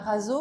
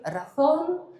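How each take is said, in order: First: The word ends in a plain vowel. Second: The word ends in a nasal sound. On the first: The speaker calls it wrong. "ça se dit pas raso" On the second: The speaker calls it right. "mais razón"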